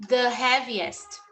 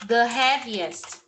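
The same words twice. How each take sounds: No difference in how they are said.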